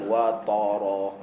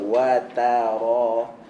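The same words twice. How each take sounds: First: The 't' is said thick and heavy. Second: The 't' is thin and the 'r' thick. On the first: It has a different meaning. The speaker calls it wrong. "Jangan watara. dia ada makna lain" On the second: It means seeing. The speaker calls it right. "ta nipis, ra tebal"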